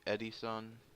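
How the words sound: The name is said in a Japanese accent.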